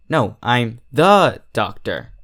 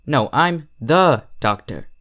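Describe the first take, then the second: First: "the" leaned on, slow and a bit louder; stress on the. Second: Said in the usual way. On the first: Acted. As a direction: press hard on "the" in "I'm the doctor". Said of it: "putting more emphasis on the". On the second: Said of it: "putting more emphasis on".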